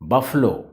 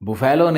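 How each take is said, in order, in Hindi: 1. इसे दो अक्षरों में बोला जाता है, ba-flo। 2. इसे तीन अक्षरों में बोला जाता है, bu-fai-lo। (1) "बुफैलो नहीं, बफलो" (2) "लिखा रहता है बुफैलो, लेकिन बुफैलो मत पढ़ना"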